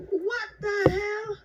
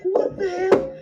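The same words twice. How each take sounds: First: High, slow and stretched out; drawn-out disbelief. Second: Alarmed exclamation. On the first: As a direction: drag out each word in shocked disbelief. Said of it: "I'm like". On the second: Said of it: "I was like". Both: Retold or imitated.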